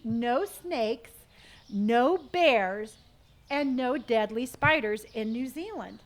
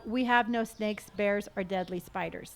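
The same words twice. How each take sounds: First: "No snakes, no bears" stressed, each item punched; emphatic list. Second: Said in the usual way. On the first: Shown as a demonstration. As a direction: stress every "no" in turn. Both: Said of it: "There, see?".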